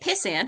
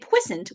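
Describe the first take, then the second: First: It sounds like the insult pissant. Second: It sounds like a dirty word. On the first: It sounds like an insult. "which obviously is not complimentary" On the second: It sounds dirty or medical. "which sounds dirty"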